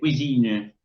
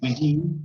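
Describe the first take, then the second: First: The sounds are exaggerated, as if dictating. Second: The word is said plainly, not exaggerated. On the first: "porque exagero el sonido" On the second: "en vez de decir cuisine"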